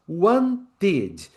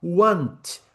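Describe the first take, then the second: First: "wanted" as want-id, two clear beats; two syllables. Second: "Want" in one beat, final t released; one syllable. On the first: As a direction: add an "id" beat to "wanted". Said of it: "passa a ter duas". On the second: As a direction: say "Want" as a single falling syllable. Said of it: "era uma sílaba". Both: Shown as a demonstration.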